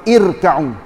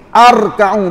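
First: The word begins with an i vowel. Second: The word begins with an a vowel. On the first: The speaker calls it right. "Kalau baca kan irka'u" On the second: The speaker calls it wrong. "Arka'u pun tak boleh"

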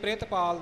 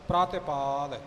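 First: The first syllable has an i vowel. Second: The first syllable has no i vowel. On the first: The speaker calls it wrong. "ਪ੍ਰਿਤਪਾਲ ਨਹੀਂ ਬੋਲਣਾ" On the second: The speaker calls it right.

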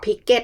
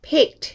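First: The ending is said as an extra syllable. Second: The ending is a plain t sound. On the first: The speaker calls it wrong. "ไม่ต้องออก" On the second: The speaker calls it right. "เสียง t"

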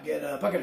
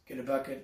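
First: 'Get a' matches the pace of 'bucket'. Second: 'Get a' is faster than 'bucket'. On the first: The speaker calls it wrong. "So it's not get a bucket of fish" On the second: The speaker calls it right. "you want to make sure that you say get a faster than the bucket of fish"

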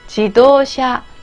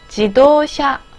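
No difference in how they are said.

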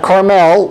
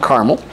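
First: Carmel is said with the California pronunciation. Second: Carmel is said unlike the California pronunciation. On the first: This names the town in California. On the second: This names the town in Indiana.

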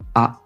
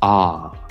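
First: The vowel is short, choppy and crisp. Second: The vowel trails off at the end.

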